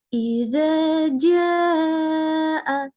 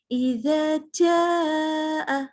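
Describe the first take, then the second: First: The j is fully voiced with no escaping air. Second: The j is breathy, sounding almost like ch. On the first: The speaker calls it right. "yang seharusnya" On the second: The speaker calls it wrong. "itu kayak ada C-nya loh"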